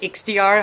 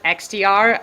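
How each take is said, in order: First: The letters are said with a German accent. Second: The letters are said with an American accent. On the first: The speaker calls it wrong. "how the Germans say it" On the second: The speaker calls it right. "the proper way, how the Americans do it"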